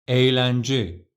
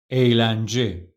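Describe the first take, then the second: The two takes are said the same way.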